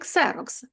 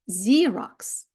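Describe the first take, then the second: First: The word begins with a 'ks' sound. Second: The word begins with a 'z' sound. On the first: "це той самий Xerox" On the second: "але читається Xerox"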